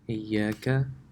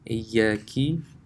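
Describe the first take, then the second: First: The word ends with an 'a' vowel. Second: The word ends with an 'i' vowel. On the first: The speaker calls it right. "Instead of reciting the Fatha here" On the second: The speaker calls it wrong. "if you recite a Kasra, ... then that's a mistake"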